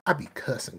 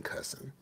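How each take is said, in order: First: Soft warning. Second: Whispered. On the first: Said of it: "I look closely to the camera". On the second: Warning his mama about cussing, in a whisper. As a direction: whisper cussing, much softer. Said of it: "I say it again". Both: Retold or imitated.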